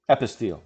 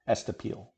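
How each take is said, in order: First: The word begins with the syllables 'e-pis'. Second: The word begins with the syllables 'es-te'. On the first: The speaker calls it right. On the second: The speaker calls it wrong.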